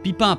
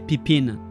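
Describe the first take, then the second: First: The ending is a French nasal vowel. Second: The final n is fully pronounced.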